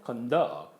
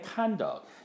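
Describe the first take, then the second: First: The stress is on the second syllable. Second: The stress is on the first syllable. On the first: It is a verb meaning to lead. "conduct 이렇게 하면 동사로서" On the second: It is a noun meaning behavior. "명사일 때 행위"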